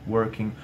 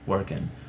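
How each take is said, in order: First: The ending is a soft back-of-tongue 'ng' sound. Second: The ending is an 'n' made behind the teeth. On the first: "com o som de um G bem sutil, bem suave aqui atrás" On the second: "com um N aqui atrás dos dentes"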